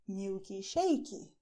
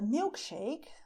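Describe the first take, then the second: First: It is said with a Brazilian Portuguese pronunciation. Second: It is said with an English pronunciation. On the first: "you will say milky shakey" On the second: "if you want a milkshake"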